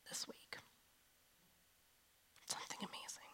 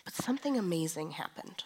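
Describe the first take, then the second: First: Hushed, teasing whisper; a little secret whispered to the room. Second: Said in the usual way. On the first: Shown as a demonstration. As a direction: lean in and whisper the news. Teasing good news in sermon.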